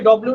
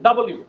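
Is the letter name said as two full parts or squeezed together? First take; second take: squeezed; two parts. First: It is squeezed into a clipped 'dublu' sound. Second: It is said as 'double' plus 'u' in full. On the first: The speaker calls it wrong. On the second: The speaker calls it right.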